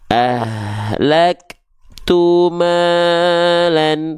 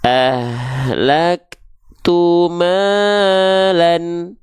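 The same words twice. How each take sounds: First: The long vowel is held without melodic swing. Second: The long vowel swings up and down in pitch. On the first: "Kalau yang nggak diayunkan" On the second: "ini yang kita ayunkan dulu"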